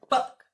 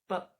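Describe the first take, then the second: First: It is said loudly with a strong burst. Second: It is said softly with gentle contact.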